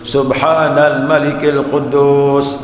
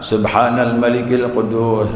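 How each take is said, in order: First: The voice is raised a little higher. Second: The voice is at a normal level.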